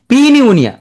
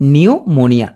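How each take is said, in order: First: It starts with a sounded p before n. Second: It starts with an n sound, no p. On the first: "তুমি পড়ার সময় কি বলবা" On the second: "পি উচ্চারণ হচ্ছে না"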